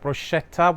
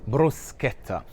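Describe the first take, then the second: First: The ch is said as a soft sh sound. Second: The ch is said as a hard k sound. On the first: The speaker calls it wrong. "Not to be confused with bruschetta, which doesn't actually exist" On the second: The speaker calls it right. "as if the C H um, were to be written with a K"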